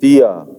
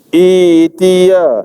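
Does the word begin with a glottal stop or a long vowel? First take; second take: glottal stop; long vowel. First: It is joined on with an audible glottal stop. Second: It starts with a long vowel and no glottal stop. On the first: "kalau kita sambung daripada sebelum walil ardi tiya, hamzah tu ada bunyi" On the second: "i dua harakat. Hamzah hilang terus"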